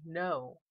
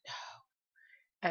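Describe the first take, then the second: First: Said in the usual way. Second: No whispered, unvoiced and soft; low whisper. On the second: Shown as a demonstration. Vlogger demonstrating the spirit's low no, whispered. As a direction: breathe the word no out low. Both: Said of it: "really low".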